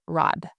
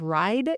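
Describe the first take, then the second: First: "rod" for ride, one flat open vowel; Southern "rod", no glide in the vowel; exchanged vowel. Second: Said in the usual way. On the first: Shown as a demonstration. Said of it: "exchanging vowels". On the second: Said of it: "like, instead of ride".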